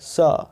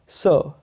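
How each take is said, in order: First: It is said with an unrounded 'ah' vowel. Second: It is said with a rounded 'aw' vowel. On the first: "American इसको सा बोलते हैं" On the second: "British में जो हमारे यहाँ सरकारी तौर पे अंग्रेजी चलती है"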